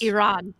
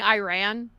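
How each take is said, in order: First: It is said carefully, after a hesitation. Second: It is said with a Texan pronunciation. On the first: The speaker calls it right. "I need to say this right. So there's like a hesitation of like" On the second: The speaker calls it wrong. "I still catch myself saying Iran because I was raised in Texas and that's just how everybody said it"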